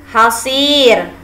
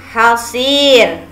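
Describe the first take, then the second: No difference in how they are said.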